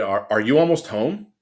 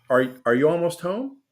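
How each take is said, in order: First: The question sounds annoyed and irritated. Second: The question sounds warm and friendly. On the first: The reader is in a bad mood. "but you're upset, you're gonna read it" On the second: The sender meant it kindly. "the way she or he might have intended"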